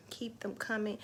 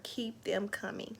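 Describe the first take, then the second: First: Said in the usual way. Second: Soft, slow whisper; whispered "Keep them coming."; whispered plea. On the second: Real, not acted. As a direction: hush it to them gently.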